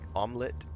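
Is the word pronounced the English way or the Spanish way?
English. The word has an English pronunciation. "omelet is in English"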